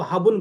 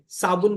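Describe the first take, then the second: First: The word begins with an h sound. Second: The word begins with an s sound. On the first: This is how it is said in one region. "Rajasthan के Barmer side में भी स को ह बोलते हैं" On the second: This is the standard form. "स को ह बोलते हैं"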